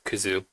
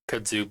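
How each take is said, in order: First: No d sound is heard before the z. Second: A d sound is heard before the z. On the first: This is the original Japanese form of the word. "in Japanese it's pronounced Kuzu" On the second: This is the English form of the word. "the D was added"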